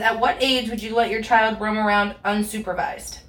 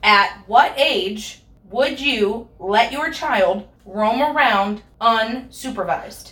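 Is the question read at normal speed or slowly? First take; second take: normal speed; slowly. First: It is read at normal speed. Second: It is read slowly.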